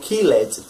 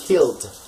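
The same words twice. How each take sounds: First: The ed ending is a separate extra syllable. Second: The ed ending is only a final d sound. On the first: The speaker calls it wrong. "I hear many people saying colled or killed, but no, that's not it" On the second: The speaker calls it right. "It's cold and killed"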